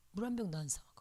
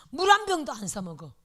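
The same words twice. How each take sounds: First: 한 kept light, the whole line softer; quiet aside, "안 사 먹어" trailing off; soft repeat. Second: 한 punched, the whole line louder; firm, loud "물 한 병도 안 사 먹어"; emphatic. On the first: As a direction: let "물 한 병도" drop to a murmur. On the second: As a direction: hit 한 hard to insist. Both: Shown as a demonstration.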